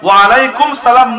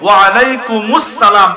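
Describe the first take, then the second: First: The words run together without a linking syllable. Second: A linking 'us' syllable joins the words. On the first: The speaker calls it wrong. "নয়" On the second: The speaker calls it right. "এভাবে দিব"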